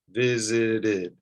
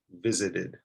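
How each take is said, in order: First: "visited" drawn out as VI-ZI-DID; "visited" stretched, with a distinct "id" ending; extra syllable. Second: "visited" quick, lower and softer; "visited" unstressed, three syllables run lightly together; extra syllable, run together. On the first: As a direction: say "visited" in three deliberate beats. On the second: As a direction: say "visited" as one smooth low word. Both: Shown as a demonstration. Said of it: "you're adding an extra syllable".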